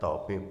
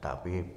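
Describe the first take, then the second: First: The first vowel sounds dark, like 'o'. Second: The first vowel sounds open, like 'a'. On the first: This follows the original Arabic letter. "Harusnya tobib" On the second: This is how Indonesians find it easier to say. "Indonesia mungkin lebih enak mengucapkannya tabib"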